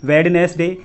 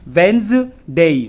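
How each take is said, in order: First: It is said in three syllables, with the d. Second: It is said in two syllables, without the d. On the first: The speaker calls it wrong. "कुछ लोग इसका गलत उच्चारण करते हैं" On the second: The speaker calls it right. "इसका सही उच्चारण होता है वेंसडे"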